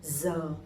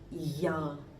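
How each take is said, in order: First: Northern accent, beginning with a Z sound. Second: Southern accent, beginning with a Y sound. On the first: "I'm from Hanoi, so my pronunciation would be giờ" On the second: "people from the south, they would say ya"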